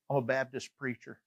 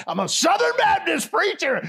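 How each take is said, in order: First: Soft, low-key retold reveal; understated admission. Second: High, loud mock preacher shout, laughing; hammed-up proclamation. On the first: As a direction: slip the confession out quietly. Understated reveal, later redone bigger. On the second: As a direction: proclaim it with comic bombast. Exaggerated version of earlier reveal.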